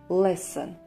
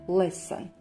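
The two takes are said the same way.

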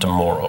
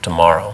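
First: It is said with a Canadian vowel. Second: It is said with an American vowel. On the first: This is how Canadians say it. "not tomorrow" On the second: This is how people in the United States say it. "Americans, they say tomorrow"

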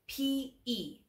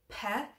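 First: It is said as two separate letters. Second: It is said as a single word. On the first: The speaker calls it right. "we must say p-e, the two letters" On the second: The speaker calls it wrong. "you kind of want to read it as pe"

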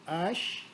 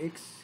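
First: The word ends with an 'sh' sound. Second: The word ends with a 'ks' sound. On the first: The call reaches everyone whose name starts with it. The speaker calls it right. "But if you say Ash, it is you calling everybody" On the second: Nobody will answer the call. The speaker calls it wrong. "If you say AX, nobody will reply to you"

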